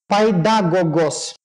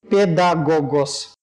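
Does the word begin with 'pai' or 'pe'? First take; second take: pai; pe. First: The word begins with the sound 'pai'. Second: The word begins with the sound 'pe'. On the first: This is the older Greek pronunciation. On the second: This is the later Byzantine Greek pronunciation.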